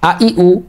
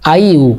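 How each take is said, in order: First: Three short, pure vowels are said separately. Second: The vowels glide together like English 'I you'. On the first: The speaker calls it right. "নট আই ইউ" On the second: The speaker calls it wrong. "অনেকে ভুল করে এভাবে বলে থাকি"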